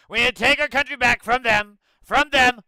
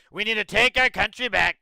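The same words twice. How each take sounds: First: Loud, higher hammed-up rally shout; over-the-top campaign yell; mock Trump shouting. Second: Mildly louder, a light Trump-style slogan; a hint of a campaign-speech Trump; mock Trump rally line. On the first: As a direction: yell it like a crowd-pumping demagogue. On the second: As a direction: parody a politician's rallying cry. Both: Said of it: "the whole Trump thing".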